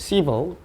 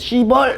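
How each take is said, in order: First: The stress is on the first syllable. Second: The stress is on the second syllable. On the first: The speaker calls it right. "강세가 앞에 있어요" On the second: The speaker calls it wrong. "뒤에다가도 시벌 이렇게 하면 안 돼"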